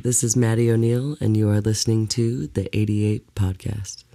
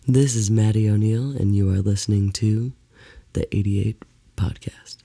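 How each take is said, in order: First: The voice stays up through the end. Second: The voice drops off at the end. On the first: The speaker calls it right. "You do have a radio voice" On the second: The speaker calls it wrong. "you dropped on the end a little bit"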